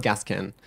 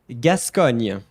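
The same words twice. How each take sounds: First: "Gascon" as "GAS-kun", no ny sound; wrong pronunciation demo. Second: "Gascogne" loud as "gas-KON-yuh", falling; French pronunciation demo. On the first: Teacher showing the wrong version, anglicised "Gascon". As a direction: flatten "Gascon" into English. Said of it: "This one is not Gascon". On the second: Teacher giving the tricky name, loud French "Gascogne". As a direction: model "Gascogne" firmly with a ny ending. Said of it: "this one is a bit tricky". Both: Shown as a demonstration.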